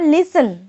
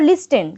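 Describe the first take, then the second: First: The t sound is left silent. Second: The t sound is clearly pronounced. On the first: The speaker calls it right. "এটার উচ্চারণ হবে লিসেন" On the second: The speaker calls it wrong. "তোমরা বলতে পারো লিস্টেন, কিন্তু না, এটা কিন্তু ভুল।"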